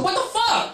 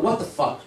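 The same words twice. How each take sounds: First: High, hammed-up angry shout; a dad losing his mind, mock-furious; mock outraged yell. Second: Said in the usual way. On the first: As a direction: echo the kid's words as an outraged father. Dad yells back.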